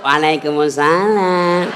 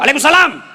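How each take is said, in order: First: It is said in a soft, alluring, drawn-out voice. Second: It is said in a loud, firm, blunt voice.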